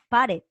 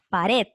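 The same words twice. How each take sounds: First: The stress is on the first syllable. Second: The stress is on the last syllable. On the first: The speaker calls it wrong. "Porque tú no dices pared" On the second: The speaker calls it right. "la fuerza de voz está en red"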